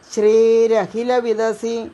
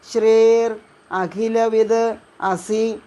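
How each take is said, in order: First: The words are run together into one word. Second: The words are said separately with a pause.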